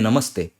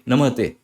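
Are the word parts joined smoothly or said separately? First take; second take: joined; separately. First: The parts are joined into one smooth flow. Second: The parts are said separately, without joining.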